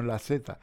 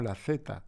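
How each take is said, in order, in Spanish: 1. La Z se pronuncia con un sonido 's'. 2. La Z se pronuncia con un sonido 'th'. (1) "sino la Z" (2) "nosotros no tenemos la Z"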